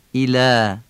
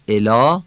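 First: ایلا as "ilææ", clear i and light long vowel; thin Arabic alef. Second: الا as "elɑ", short e and dark aa; Persian vowels. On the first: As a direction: draw out a thin "æ" at the end of ایلا. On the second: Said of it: "الا فارسیه". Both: Shown as a demonstration.

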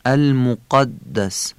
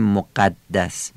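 First: المقدس slow, with a dark short "a" after q; correct short backed vowel. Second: مقدس with a thin "æ" after the q; wrong fronted vowel. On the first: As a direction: say المقدس with a heavy, firm "qa". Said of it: "میگیم". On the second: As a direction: say مقدس lightly, Persian-style "moqæddæs". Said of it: "یعنی نمیگیم مقدس". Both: Shown as a demonstration.

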